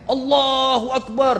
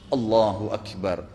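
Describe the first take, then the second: First: It is shouted loudly. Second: It is said quietly.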